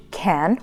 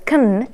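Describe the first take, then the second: First: Said in the usual way. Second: "kn" with the vowel gone; reduced "can". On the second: Shown as a demonstration. Teacher contrasts it with full can, reduced "kn". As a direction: squash "can" into k plus n. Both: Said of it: "Americans usually exchange".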